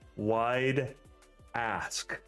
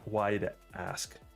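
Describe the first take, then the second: First: Each word is carefully and clearly enunciated. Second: The two words run together casually.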